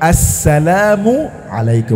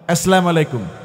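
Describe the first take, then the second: First: A 'u' vowel is heard between 'salam' and 'alaikum'. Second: No vowel is heard between 'salam' and 'alaikum'. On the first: The speaker calls it right. "শব্দটা হবে আসসালামু আলাইকুম।" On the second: The speaker calls it wrong. "সালামের উচ্চারণটা আমরা জানি না।"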